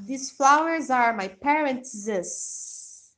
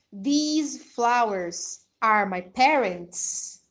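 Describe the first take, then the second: First: Parents' said slow with a final s; slow teacher demo of my parents'; with apostrophe. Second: Parents said plain, no final s; slow demo of my parents without the possessive; without apostrophe. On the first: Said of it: "Agora, se eu falar". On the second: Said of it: "sem o apóstrofe". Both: Shown as a demonstration.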